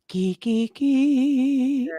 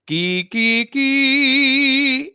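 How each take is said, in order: First: The voice sounds thin and light, from the top. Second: The voice sounds full and strong, from the chest. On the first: The speaker calls it wrong. "it was just like the top parts of the vocal cords" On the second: The speaker calls it right. "it's more of the full closure of the vocal cords"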